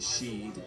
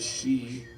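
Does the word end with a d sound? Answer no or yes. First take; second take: yes; no. First: The word ends with a clear d sound. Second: The word ends in a vowel, with no final d.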